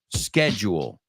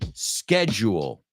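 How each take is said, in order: First: The word begins with a 'sk' sound. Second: The word begins with a 'sk' sound.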